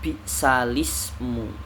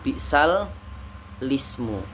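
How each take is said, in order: First: The words run together with a single lam. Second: The words are split with a doubled lam. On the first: The speaker calls it right. "dibaca bi'salismu" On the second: The speaker calls it wrong. "bukan bi'sal lismu"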